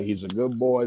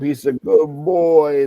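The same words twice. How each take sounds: First: Said in the usual way. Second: Drawn out, higher and louder; pleading grandfather. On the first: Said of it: "Don't ever say". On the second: Retold or imitated. Grandfather vouching for his grandson, pleading. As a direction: stretch it out as a raised-pitch plea. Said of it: "Always was there to defend me".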